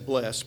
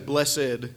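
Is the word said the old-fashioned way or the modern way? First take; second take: modern; old-fashioned. First: The word is said the modern way. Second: The word is said the old-fashioned way. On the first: "So I just say blessed" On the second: "the old English way of saying it"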